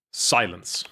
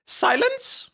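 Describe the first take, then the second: First: Put-on low, stern young master order; low stern command. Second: Much higher, slow, squeaky mock command; high squeaky try. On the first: Testing a low voice for the young master's order. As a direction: growl it like a cold boss. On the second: Streamer testing a squeaky voice for the young master. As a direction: try the order as a squeaky falsetto. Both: Shown as a demonstration. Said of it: "I can't do that voice".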